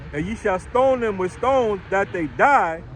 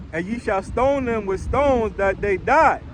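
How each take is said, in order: Both takes have the same delivery.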